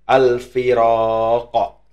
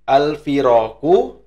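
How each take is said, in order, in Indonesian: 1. Bunyi q di akhir disukun dan dipantulkan. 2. Kata ini berakhir dengan vokal penuh.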